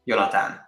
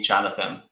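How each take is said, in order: First: The name is said with Hungarian pronunciation. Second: The name is said with English pronunciation. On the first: This is the name as said at home. "That's the pronunciation" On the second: This is the simpler form used abroad. "it's easier to go with Jonathan"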